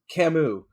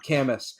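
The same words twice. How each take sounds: First: The name is said the accepted way. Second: The name is said as a misreading. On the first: The speaker calls it right. "his name is pronounced Camus" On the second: The speaker calls it wrong. "not Camus"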